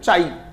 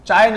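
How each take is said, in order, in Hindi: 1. शब्द का अंत लंबे ee स्वर से होता है। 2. शब्द का अंत छोटे y ग्लाइड से होता है। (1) "इट इज रेड एज चाई" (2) "चाय नहीं"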